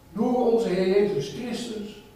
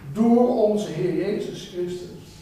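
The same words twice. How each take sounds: The two takes are said the same way.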